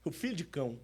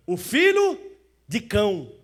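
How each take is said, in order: First: Dropped to a near hush; quiet repeat. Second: Called out high and loud; loud answer. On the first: Preacher repeating the answer to the church, hushed. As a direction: let the words sink in softly. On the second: Preacher answering his own question, loud. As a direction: proclaim the answer to the church. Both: Acted.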